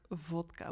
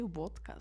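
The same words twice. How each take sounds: First: The word begins with a V sound. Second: The word begins with a W sound. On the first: This is the official way to say it. "like vodka with like a V" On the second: This is how it is said in the Netherlands. "but then still we say vodka"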